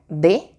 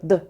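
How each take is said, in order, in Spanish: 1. Se pronuncia como una sílaba completa con vocal. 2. Se pronuncia como un sonido consonántico aislado. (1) "el nombre de la letra" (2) "el sonido que hace"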